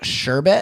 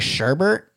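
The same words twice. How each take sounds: First: The word is said in its original form. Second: The word is said in its popular variant form. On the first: This is the original form of the word. The speaker calls it right. "but it's sherbet" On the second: This is how many people say it. The speaker calls it wrong. "a lot of people say sherbet"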